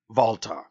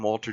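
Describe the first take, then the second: First: The name is said with German pronunciation. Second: The name is said with English pronunciation. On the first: The speaker calls it right. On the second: The speaker calls it wrong.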